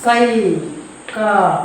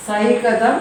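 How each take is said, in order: First: സൈകതം stretched very slowly, each syllable held; slow drawn-out demo. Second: Said in the usual way. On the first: Shown as a demonstration. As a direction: spell out സൈകതം slowly for the class. (സൈകതം പതുക്കെ നീട്ടി ഉച്ചരിക്കുക) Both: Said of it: "ഇനി അടുത്തൊന്ന് നോക്കാം".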